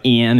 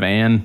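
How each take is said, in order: First: "Ian" for Ann, Northern shifted vowel; Northern accent vowel. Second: Said in the usual way. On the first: Retold or imitated. Quoting Northern used car salesmen, Northern accent vowel. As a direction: raise Ann's vowel toward "Ian". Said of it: "fucking stupid Northern accent". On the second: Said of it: "instead of Ann".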